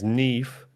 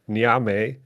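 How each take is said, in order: First: The name is said as 'Neev'. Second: The name is said as 'Nee-am'. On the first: The speaker calls it right. "it's actually how you pronounce it is Neve" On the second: The speaker calls it wrong. "I said the name the same way you did"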